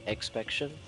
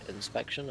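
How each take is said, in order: First: The word begins with an 'ex' sound. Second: The word begins with an 'in' sound. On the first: The speaker calls it wrong. "I'm saying expection" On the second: The speaker calls it right. "and it's inspection"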